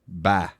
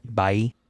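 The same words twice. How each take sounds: First: "Bye" flattened to "bah"; Southern "bah". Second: "bye" with a hard I; hard I sound. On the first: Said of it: "It's like B A H". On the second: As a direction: say "bye" with a full, hard I vowel. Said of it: "get that hard I sound". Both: Shown as a demonstration.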